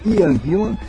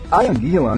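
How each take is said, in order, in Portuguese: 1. O nome é lido com sons ingleses. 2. O nome é lido com sons portugueses. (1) "no lugar do correto, que é Ian Gillan"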